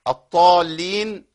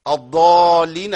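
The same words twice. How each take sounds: First: «الضالين» slow, with heavy t for dad; wrong letter for dad. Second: «الضالين» loud and slow with emphatic d; proper dad. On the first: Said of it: "إبدالها بحرف ما ينفعش". («الضالين» بطاء بدل الضاد) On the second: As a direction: lean long on a true ض in «الضالين». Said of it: "الضالين الذين ضلوا". («الضالين» بضاد صحيحة) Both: Shown as a demonstration.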